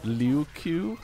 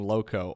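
First: The name sounds like 'liu-ku'. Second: The name sounds like 'low-ko'. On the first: The speaker calls it right. "It's actually" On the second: The speaker calls it wrong. "have been mispronouncing Lowko all this time"

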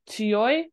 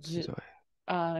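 First: The word begins with an unvoiced ts sound. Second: The word begins with a voiced z sound. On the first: This is the word on its own. "normally pronounced as tsuyoi" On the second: This is the word joined after another word. "it's pronounced with a Z sound"

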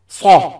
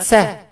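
First: The consonant is heavy and emphatic. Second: The consonant is light and plain. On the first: The speaker calls it right. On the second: The speaker calls it wrong.

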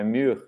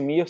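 First: The vowel is shaded toward an 'oo' sound. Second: The vowel is a plain 'ee' sound. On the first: "o I tem um pouco mais pro som de U" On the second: "é como se fosse Mir"

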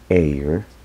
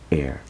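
First: The vowel sounds long, like in gray. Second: The vowel sounds short, like in red. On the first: The speaker calls it wrong. "en vez de decir air" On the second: The speaker calls it right. "se debe pronunciar entonces como si fuese el color rojo, o la E en el color rojo sería air"

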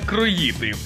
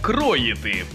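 First: The stress is not on the first syllable. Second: The stress is on the first syllable. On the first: The speaker calls it wrong. "Я от теж усе життя казав саме «кроїти»" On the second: The speaker calls it right. "правильно казати саме «кроїти»"

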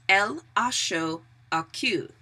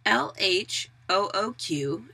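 First: The letters run together quickly like a sentence. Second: The letters are spelled out separately and slowly.

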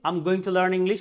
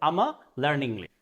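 First: Going to is pronounced in full. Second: Going to is reduced into one short syllable.

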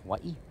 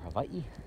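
First: The middle consonant is a W sound. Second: The middle consonant is a V sound. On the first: This is the common outside way to say it. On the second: This is the way local people say it.

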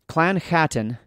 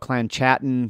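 First: The CH is a guttural throat sound. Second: The CH is not a guttural throat sound. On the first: "so I'm pronouncing that with a guttural CH" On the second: "We could go"

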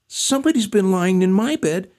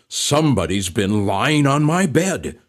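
First: It is said in a tiny squeaky voice. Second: It is said in a deep growling voice.

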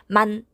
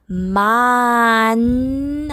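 First: The vowel is cut very short. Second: The vowel is held long. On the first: The speaker calls it wrong. "되게 짧게 만 하고" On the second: The speaker calls it right. "충분히 아 소리를 길게 내주셔야"

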